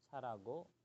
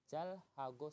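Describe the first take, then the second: First: The words run together and the h is dropped. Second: The words are separated and the h is pronounced. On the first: This is the quick, fluent reading. "kalau mau cepet itu carago" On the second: This reading puts emphasis on the words. "kalau mau menekankan"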